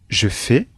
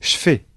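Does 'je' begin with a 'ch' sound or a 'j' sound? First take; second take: j sound; ch sound. First: The pronoun starts with a voiced 'j' sound. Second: The pronoun starts with a voiceless 'ch' sound.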